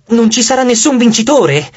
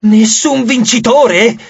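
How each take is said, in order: First: Said in the usual way. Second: Slow, high incredulous question; shocked. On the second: A narrator's reading. Nike staring at Leo, shocked. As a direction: echo it slowly in disbelief. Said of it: "un'espressione così scioccata".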